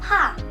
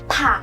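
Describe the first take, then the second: First: The first consonant is said very softly. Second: The first consonant is said with a strong burst. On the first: The speaker calls it right. "پی خیلی ملایم" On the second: The speaker calls it wrong. "نمیگم پا، این اشتباس"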